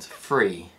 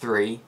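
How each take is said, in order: First: It starts with an f sound. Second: It starts with a th sound.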